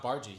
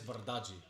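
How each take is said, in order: First: The surname is said with two syllables. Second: The surname is said with three syllables. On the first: This is how TV announcers have said it. The speaker calls it wrong. "but it's not Bargy" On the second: This is how the player says it himself. The speaker calls it right. "He says Bardaggi"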